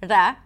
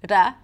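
Both takes have the same delivery.

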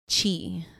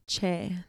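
First: The ending is pronounced like 'Chi'. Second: The ending is pronounced like 'Che' in Guevara. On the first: The speaker calls it wrong. "They would end it in Chi" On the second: The speaker calls it right. "they wouldn't say it as Che"

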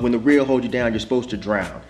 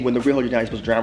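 First: It is said as a flat statement. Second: It is said as a questioning remark.

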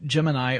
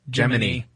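First: The word ends with an 'eye' sound. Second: The word ends with an 'ee' sound.

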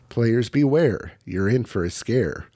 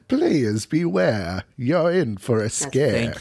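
First: It is read in a plain, ordinary voice. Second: It is read in a put-on, dramatic voice. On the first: The speaker calls it wrong. "Do it again and do it right" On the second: The speaker calls it right. "there's like a specific way that you have to say this because it's a very obvious reference"

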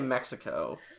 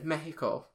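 First: The name is pronounced the English way. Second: The name is pronounced the Spanish way. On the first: This is how people here normally say it. "we say Mexico" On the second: This is not how people here normally say it. "we also don't say Mexico"

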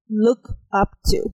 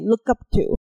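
First: The words are said separately without linking. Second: The words are linked together smoothly.

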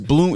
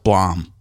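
First: The vowel is a long oo sound. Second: The vowel is a short o sound. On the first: This is how the name is actually pronounced. The speaker calls it right. "You pronounce it Bloom" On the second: This follows the spelling, as a memory aid. The speaker calls it wrong. "if you want to not confuse yourself, it's Blom"

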